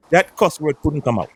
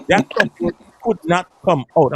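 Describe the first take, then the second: First: Said in the usual way. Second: "could not" pulled apart, each word stressed; emphatic word-by-word retelling. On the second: Retold or imitated. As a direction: hit "could" and "not" as separate, higher words.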